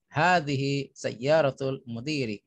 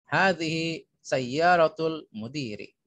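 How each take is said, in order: Both takes have the same delivery.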